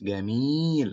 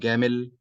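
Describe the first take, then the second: First: The vowel in the second syllable is long. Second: The vowel in the second syllable is short. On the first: The speaker calls it right. "it's جميل, like that, long" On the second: The speaker calls it wrong. "Not جميل"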